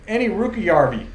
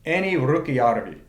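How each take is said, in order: First: It is said with an American accent. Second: It is said the Finnish way, with a rolled r.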